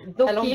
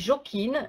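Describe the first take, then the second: First: The name begins with an English 'th' sound. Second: The name begins with a French 'j' sound. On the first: The speaker calls it right. "un peu à l'anglaise, c'est-à-dire qu'avec un T H à la place du J" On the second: The speaker calls it wrong. "ça s'écrit jokin"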